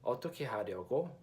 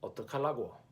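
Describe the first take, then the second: First: It is said in standard Korean, uncontracted. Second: It is said in Busan dialect, contracted.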